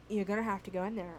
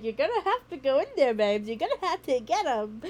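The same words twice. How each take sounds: First: Said in the usual way. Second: Self pep talk. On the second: Retold or imitated. Talking herself into entering.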